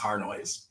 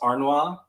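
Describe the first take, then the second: First: The name is said with an English pronunciation. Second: The name is said with a French pronunciation. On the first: "the Anglo version is" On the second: "In France, it's pronounced"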